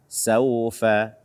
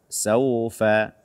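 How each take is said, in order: No difference in how they are said.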